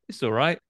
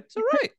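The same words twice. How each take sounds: First: It is said at a normal, lower pitch. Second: It is said at a slightly higher pitch.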